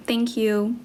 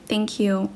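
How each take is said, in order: Both takes have the same delivery.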